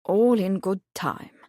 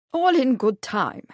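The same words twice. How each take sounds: First: Said in the usual way. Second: A jolly, higher teasing brush-off; jovial. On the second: A narrator's reading. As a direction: keep them guessing with good humour. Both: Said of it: "the prince said jovially".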